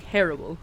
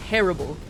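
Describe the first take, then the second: No difference in how they are said.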